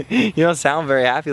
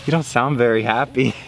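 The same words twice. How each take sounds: First: Laughing through the line at Chase; laughing teasing. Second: Said in the usual way. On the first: Real, not acted.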